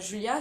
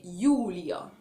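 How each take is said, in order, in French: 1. Le prénom commence par un son 'zh'. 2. Le prénom commence par un son 'y'. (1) "c'est pas Julia" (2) "il se prononce Y"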